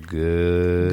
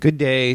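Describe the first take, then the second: First: It is said very slowly, drawn out. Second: It is said at a normal speed.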